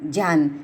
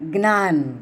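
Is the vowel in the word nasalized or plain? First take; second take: plain; nasalized. First: It begins with a plain j and has no nasalization. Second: It begins with a cluster and has a nasalized vowel. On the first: This is how Hindi speakers say it. "Hindi ભાષીઓ ... જ કહે છે ... અનુનાસિકતા નથી જાળવતા" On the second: This is how Gujarati speakers say it. "આપણે જ વત્તા ય વત્તા અ જ ખોડો વત્તા ય ખોડો વત્તા અ બરાબર જ્ઞ બોલીએ છીએ"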